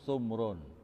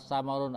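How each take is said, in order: First: Only the first syllable has a u vowel. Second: Both syllables have an a vowel. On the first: "wasukunisani dan sukun yang kedua" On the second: "bifat kita dengan fatahanya"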